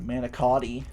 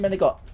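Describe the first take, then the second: First: A plain C sound is used and the final vowel is kept. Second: A hard G replaces C and the final vowel is dropped.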